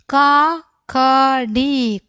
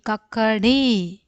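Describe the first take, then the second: First: Slow reading. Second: Said in the usual way. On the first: Shown as a demonstration. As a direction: model കക്കടി slowly first. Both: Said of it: "അക്ഷരങ്ങൾ ഓരോന്നോരോന്നായിട്ട് വായിക്കാം".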